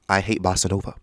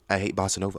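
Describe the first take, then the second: First: It is said loudly. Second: It is said at normal volume.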